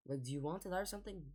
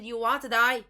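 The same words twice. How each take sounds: First: Said in the usual way. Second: Exasperated squeak on die; incredulous high-pitched challenge; voice jumps higher. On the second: Real, not acted. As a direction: Do you want to die? pushed higher and louder. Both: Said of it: "did my voice just get higher in pitch".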